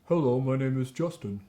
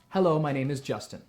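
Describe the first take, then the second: First: It is said with rounded, darker resonance. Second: It is said with a neutral, relaxed resonance. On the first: "pucker your lips and say" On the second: "that's just a neutral mouth position"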